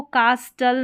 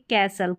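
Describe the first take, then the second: First: कास्टल with the T sounded; wrong pronunciation. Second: कैसल with silent T; correct pronunciation. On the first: Teacher warning learners off a reading, कास्टल with spoken T. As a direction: say कास्टल with a clear t. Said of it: "कास्टल नहीं पढ़ेंगे". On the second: Teacher showing the right reading, कैसल without T. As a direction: say कैसल, s straight into l. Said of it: "इसको पढ़ेंगे कैसल". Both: Shown as a demonstration.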